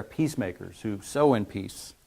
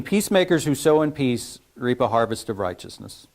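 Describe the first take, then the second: First: "sow" leaned on, falling, the rest softer; stress on sow. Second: Said in the usual way. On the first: Shown as a demonstration. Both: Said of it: "See where his emphasis is there".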